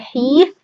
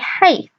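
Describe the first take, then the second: First: The vowel is a long ee sound. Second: The vowel is an ay diphthong. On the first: The speaker calls it wrong. "You don't say heath" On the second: The speaker calls it right. "you say hayth"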